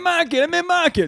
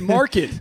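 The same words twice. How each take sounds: First: The R sound after the vowel is dropped. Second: The R sound after the vowel is pronounced. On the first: The speaker claims to be a local. "I meant Market" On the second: The speaker gives himself away as an outsider. "you said Market"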